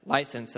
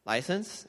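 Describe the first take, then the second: First: "License." as a statement with a falling end; firm demand. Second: "License?" with the pitch climbing to a questioning end; puzzled question. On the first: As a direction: repeat "License." firmly, closing it downward. Officer repeats his demand. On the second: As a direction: echo "License?" as a confused, higher question. Confused driver echoes officer's demand. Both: Retold or imitated.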